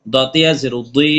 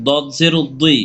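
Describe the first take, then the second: First: Final দি drawn out one alif; recited spelling ending on a long দি; long madd vowel. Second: Final দি kept short; recited spelling ending on an unstretched দি; short vowel. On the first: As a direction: stretch the vowel of দি. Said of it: "এক লিপ টেনে পড়বো". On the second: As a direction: say দি briefly. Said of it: "হরকত উচ্চারণ তাড়াতাড়ি পড়বো". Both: Shown as a demonstration.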